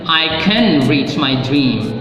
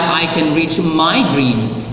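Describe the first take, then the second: First: The stress falls on the word can. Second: The stress falls on the word my. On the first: Reaching the dream is possible. "you believe it's possible to reach your dream" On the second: The dream belongs to no one else. "It's not anybody, anybody else's dream, it's your dream"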